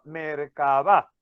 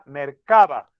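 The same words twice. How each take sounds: First: The stress is on the last syllable. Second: The stress is on the second-to-last syllable. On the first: "tenía que tener tilde en la última sílaba" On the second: "si no lleva tilde, sería Mercaba"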